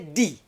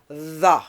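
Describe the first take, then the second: First: It begins with a hard 'd' stop. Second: It begins with a voiced 'th' fricative. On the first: The speaker calls it wrong. "some people say D" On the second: The speaker calls it right. "voice dental fricative"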